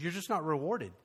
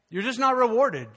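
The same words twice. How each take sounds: First: Said in the usual way. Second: "You're just not rewarded" higher and louder; emphatic repeat. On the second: Real, not acted. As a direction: drive home "not rewarded" with raised pitch and force.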